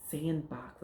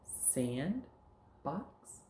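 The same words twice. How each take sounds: First: "sandbox" as one falling word; words joined. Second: "Sand" rising, a pause, then "box"; words kept apart. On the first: Teacher putting two words together, joined "sandbox". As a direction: blend "sandbox" with no gap. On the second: Teacher prompting pupil to join words, separate "Sand", "box". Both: Shown as a demonstration. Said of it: "take words and put 'em together".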